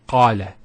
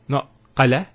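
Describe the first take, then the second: First: The first a sound is held long. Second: The first a sound is short. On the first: The speaker calls it right. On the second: The speaker calls it wrong.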